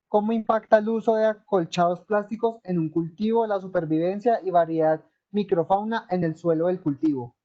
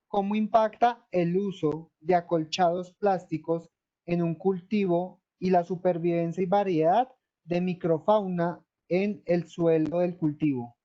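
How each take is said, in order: First: It is read at a fairly fast pace. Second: It is read more slowly.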